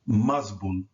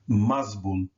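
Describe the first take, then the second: No difference in how they are said.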